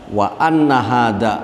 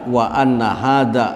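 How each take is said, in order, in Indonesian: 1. Partikel itu diucapkan dengan vokal 'a'. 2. Partikel itu diucapkan dengan vokal 'a'.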